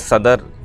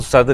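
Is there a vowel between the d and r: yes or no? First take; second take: yes; no. First: A vowel is inserted between the d and r. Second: The d and r join with no vowel between. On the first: The speaker calls it wrong. "सदर इन्होंने पढ़ा" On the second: The speaker calls it right. "सद्र को सद्र ही पढ़ें तो ज़्यादा बेहतर है"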